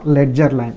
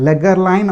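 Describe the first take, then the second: First: The middle consonant is a soft j sound. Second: The middle consonant is a hard g sound. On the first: "Spelling is this only, ledger line" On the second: "You can pronounce it as legger line also"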